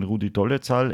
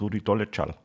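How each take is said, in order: First: "Dolezal" said with a ts sound for the z; richtige Aussprache. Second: "Dolezal" softly said with a tsch sound for the z; falsche Aussprache. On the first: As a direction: say "Dolezal" as Do-le-tsal. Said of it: "wie man richtig ausspricht". („Dolezal“ mit ts gesprochen, Do-le-tsal) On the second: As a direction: say "Dolezal" as Do-le-tschal. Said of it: "Ich hab immer gesagt". („Dolezal“ mit tsch gesprochen, Do-le-tschal) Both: Shown as a demonstration.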